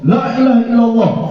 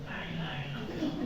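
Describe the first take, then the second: First: It is said very loudly. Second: It is said very quietly.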